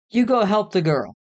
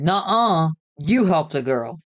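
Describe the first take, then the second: First: Bickering order. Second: Bickering refusal. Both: A narrator's reading. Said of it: "me and Chris bickered back and forth".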